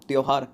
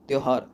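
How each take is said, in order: Both takes have the same delivery.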